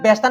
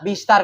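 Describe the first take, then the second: First: The first vowel sounds like 'e'. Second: The first vowel sounds like 'i'. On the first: The speaker calls it wrong. "বেশতার না" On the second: The speaker calls it right. "বিস্তার কারণ জিরে পরে ইয়া"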